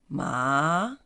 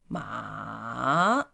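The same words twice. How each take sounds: First: The pitch rises from middle to high. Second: The pitch dips low and then rises. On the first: "is going up" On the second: "falling, rising. It starts from here, going down, and then up"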